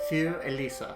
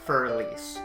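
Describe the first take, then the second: First: It is said with an attempted German pronunciation. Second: It is said with an American English pronunciation. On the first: "I'm going to butcher this when I say it" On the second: "if you're American like me and cannot do proper pronunciation"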